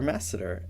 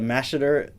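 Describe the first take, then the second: First: The first syllable is said with an 's' sound. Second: The first syllable is said with a 'sh' sound.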